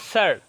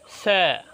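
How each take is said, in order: First: It is said with a final r sound. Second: It is said without the final r sound.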